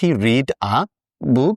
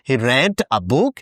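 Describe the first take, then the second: First: The word read rhymes with seed. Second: The word read rhymes with bed. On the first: The verb is in its base form after did. "আর এটা হবে" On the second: The reading happened in the past. "এটা উচ্চারণ করার সময় বলতে হবে"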